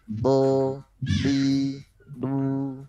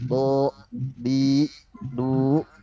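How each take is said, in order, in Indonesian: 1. Setiap suku kata ditahan rata dan mengalir lancar. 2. Setiap suku kata berakhir dengan hentian yang mendadak dan ditekan. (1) "Jadi lempeng aja" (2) "jangan ada hamzah sukun di belakang"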